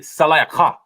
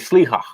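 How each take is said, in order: First: The word is longer, with four syllables. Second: The word is short, with two syllables. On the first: This is how it should properly be said. The speaker calls it right. "It'll be salayakha" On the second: This is how modern speakers say it. The speaker calls it wrong. "this one they say sliha"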